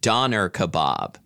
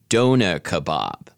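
First: It is said with an American pronunciation. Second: It is said with a British pronunciation. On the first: "American pronunciation" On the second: "British pronunciation"

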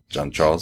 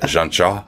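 First: The final S of the name is pronounced. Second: The final S of the name is silent. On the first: The speaker calls it wrong. "Not Jean-Charles" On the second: The speaker calls it right. "Jean-Charles, I should say. He would not pronounce the S"

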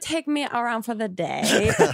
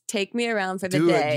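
First: It is said in an imitated foreign accent. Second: It is said in the speaker's ordinary voice.

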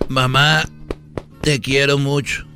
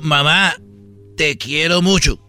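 First: It is said at a normal, soft volume. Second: It is said loudly, almost shouted.

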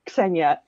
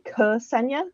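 First: The k and s form one tight cluster. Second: A short vowel separates the k and s. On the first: "in Russian, it's Ksenia, Ks, all is one thing at the beginning" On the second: "English speakers ... often say Ksenia"

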